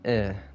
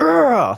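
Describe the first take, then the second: First: The grunt is flat and lifeless. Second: The grunt is loud and energetic.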